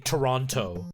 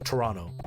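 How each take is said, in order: First: The second T is clearly pronounced. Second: The second T is dropped into the N. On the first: The speaker is not Canadian. "non-Canadians, when they say that city, they say Toronto" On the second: The speaker sounds Canadian. "You don't pronounce the second T, you just pronounce it as an N"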